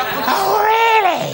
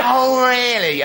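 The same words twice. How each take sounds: First: High, loud mock-furious "Oh, really?"; furious shout. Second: Mock fury. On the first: Strict teacher yelling at a pupil who came in late, high sarcastic shout. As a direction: shriek it in sarcastic teacher rage. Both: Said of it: "I was furious".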